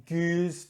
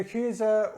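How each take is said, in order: First: "Gueuze" in one syllable, silent final e; French pronunciation. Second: "Küse" in two syllables, ending in uh; Dutch pronunciation. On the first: Offering the French alternative, "Gueuze" as one syllable ending in z. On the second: Offering both names of the style, "Küse" with Dutch final uh. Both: Shown as a demonstration. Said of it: "depending on if you're talking French".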